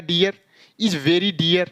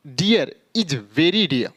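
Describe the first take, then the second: First: "dear is very dear" with each r pronounced; mistaken sounded r. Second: Very slow "dear is very dear", last "dear" as dee-yaa; linking and silent r. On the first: Teacher shows learners the wrong reading, "dear" with sounded r. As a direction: end both "dear"s on a clear r. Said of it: "यानी ये तो गलत हो जाएगा". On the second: Teacher models the correct reading slowly, final "dear" r-less. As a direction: link first "dear" to is, drop the final r. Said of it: "तो क्या पढ़ेंगे". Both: Shown as a demonstration.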